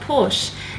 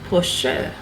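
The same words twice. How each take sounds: First: The word is said with one syllable. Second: The word is said with two syllables. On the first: The speaker calls it wrong. "the correct pronunciation is not Porsche" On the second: The speaker calls it right. "It's actually two syllables"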